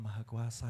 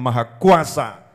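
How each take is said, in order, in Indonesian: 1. Diucapkan dengan pelan dan tidak jelas. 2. Diucapkan dengan keras dan tegas. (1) "ya ora cetha" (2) "suaranya rodok banter"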